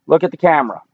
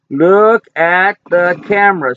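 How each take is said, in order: First: Said in the usual way. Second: Stretched-out, gentle pet-talk request; slow coaxing. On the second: Real, not acted. Owner coaxing his dog to face the camera, slow and gentle. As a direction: draw it out to coax the dog.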